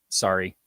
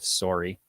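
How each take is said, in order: First: It is said with an American accent. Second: It is said with a Canadian accent. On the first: "having to adopt a quote unquote standard American accent" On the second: "instead of"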